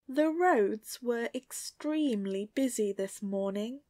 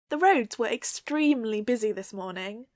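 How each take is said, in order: First: It is said slowly. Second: It is said at natural speed.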